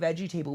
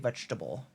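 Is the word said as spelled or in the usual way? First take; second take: as spelled; usual. First: It is said letter by letter, veggie table. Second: It is said the usual reduced way. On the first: "How come we don't say veggie table?" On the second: "We say vegetable"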